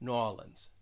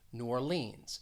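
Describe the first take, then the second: First: It is said in a southern American accent. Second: It is said in a general American accent.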